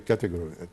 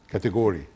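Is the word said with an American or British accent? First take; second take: British; American. First: It is said with a British accent. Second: It is said with an American accent. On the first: "if the British would say" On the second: "the Americans would say"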